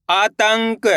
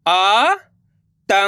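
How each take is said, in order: First: Said in the usual way. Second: आतंक split into slow syllables. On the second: Shown as a demonstration. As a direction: sound out आतंक piece by piece. (आतंक को अक्षर-अक्षर बोलना) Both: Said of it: "देखिए किस तरीके से".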